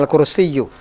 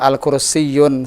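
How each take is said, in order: First: The word ends on a vowel without n. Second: The word ends with an added n sound. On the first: The speaker calls it right. "kalau ada alif lam maka apa yang hilang? tanwin" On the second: The speaker calls it wrong. "Kenapa kalau kita bilang al-kursiyun salah?"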